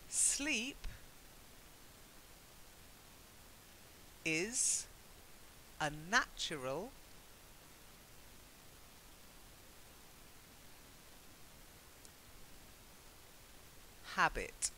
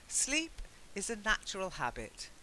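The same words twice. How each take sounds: First: The sentence is read slowly. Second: The sentence is read at normal speed. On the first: "read it out more slowly now" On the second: "at a normal speed"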